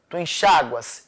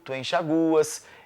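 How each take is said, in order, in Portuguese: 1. A tônica cai na vogal a. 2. A tônica cai na vogal u. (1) "se forem pronunciados com A ou I tônicos" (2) "Se forem pronunciadas com U tônico"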